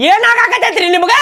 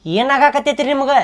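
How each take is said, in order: First: High, insistent questioning; raised voice. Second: Said in the usual way. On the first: Acted. Friend presses the silent mother for answers, raised voice. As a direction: raise your voice and demand an answer. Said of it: "ಅವಾಜ್ ಮಾಡಿ ಕೇಳಿದ್ರ".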